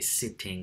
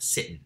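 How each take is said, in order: First: The middle T is fully pronounced. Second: The middle T is a glottal stop. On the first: The setting is a formal speech. "I would say sitting or eating with the T voiced, or pronounced rather" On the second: The setting is an informal conversation. "I would probably turn that T sound into a glottal stop"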